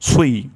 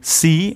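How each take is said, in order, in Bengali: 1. s ধ্বনিটি ভারী, ঠোঁট গোল করে। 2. s ধ্বনিটি পাতলা ও হালকা। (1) "প্রথম ঠোঁট গোল হবে, তারপর ঠোঁটটি ছড়িয়ে যাবে" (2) "ভুল উচ্চারণ"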